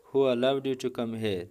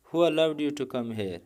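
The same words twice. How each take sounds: First: Said in the usual way. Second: Who raised high, slow and demanding; slow stern question, Who stressed; indignant challenge. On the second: Shown as a demonstration. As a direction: confront an intruder, leaning on Who.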